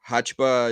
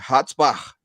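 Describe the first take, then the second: First: The surname is simplified to Brazilian-style sounds. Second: The surname keeps its original German-style sounds. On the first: This is the easier form used with Brazilians. "Hachba is more easy" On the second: This is the family's original form of the name. "it's from Germany"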